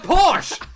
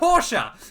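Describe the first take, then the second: First: The word is said with one syllable. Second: The word is said with two syllables. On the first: The speaker calls it right. "It's a Porsche" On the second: The speaker calls it wrong. "not a Porsche"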